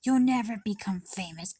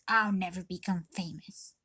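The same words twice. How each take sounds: First: Loud mocking imitation of mom; mom's put-down. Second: Unvoiced whispered echo of the put-down. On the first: Girl mimicking her mom's put-down, loud and mocking. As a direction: bark it like the mother crushing her dream. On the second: Girl repeating mom's words to herself in a whisper. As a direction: breathe it to herself like a defeated echo. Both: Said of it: "she said".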